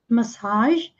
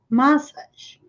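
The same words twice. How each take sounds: First: The stress is on the last syllable. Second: The stress is on the first syllable. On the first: This is the American pronunciation. "no inglês americano eles falam massage, com a ênfase aqui no final" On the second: This is the British pronunciation. "no inglês britânico é aqui no início que está a ênfase"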